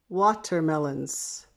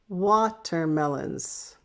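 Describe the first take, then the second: No difference in how they are said.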